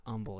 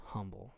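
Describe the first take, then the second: First: "humble" said as "umble"; silent H. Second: "humble" with an audible H at the front; sounded H. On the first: Host rejecting a pronunciation, H dropped from "humble". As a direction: start "humble" on the vowel, no H. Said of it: "the word is not". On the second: Host settling the correct word, H sounded in "humble". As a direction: pronounce the H in "humble", softly. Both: Shown as a demonstration.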